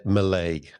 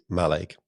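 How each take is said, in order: First: Mallaig with the weight on the second syllable, "muh-LAIG"; wrong pronunciation. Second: Mallaig with the weight on the first syllable, "MAL-aig"; corrected pronunciation. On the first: Retold or imitated. Co-host showing how Nigel said it, Mallaig mispronounced with second-syllable stress. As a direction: say Mallaig as muh-LAIG, first vowel reduced. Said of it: "you might have said". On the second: Shown as a demonstration. Co-host correcting Nigel's pronunciation, Mallaig stressed on the first syllable. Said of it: "I believe it is Mallaig".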